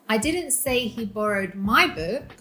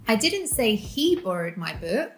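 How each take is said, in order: First: The stress falls on the word 'my'. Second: The stress falls on the word 'he'. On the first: Another person's book was borrowed. "He borrowed your book" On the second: Someone else borrowed it. "She did"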